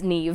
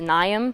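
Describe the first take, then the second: First: The name ends with a v sound. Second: The name ends with an m sound. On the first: This is how the name is really said. The speaker calls it right. "but it's Neve. M H is V" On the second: This is how most people say it. The speaker calls it wrong. "usually people pronounce it"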